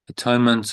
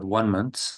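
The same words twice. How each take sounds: First: The middle part sounds like 'tone'. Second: The middle part sounds like 'one'.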